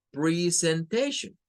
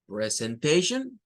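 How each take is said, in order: First: "presentation" said with pri, slowly; slow "presentation" starting pri; I sound variant. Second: "presentation" said with pre, slowly; slow "presentation" starting pre; E sound variant. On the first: Teacher imitates someone saying "presentation" with pri. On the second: Teacher imitates someone saying "presentation" with pre. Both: Shown as a demonstration. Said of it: "escuchamos a alguien decir".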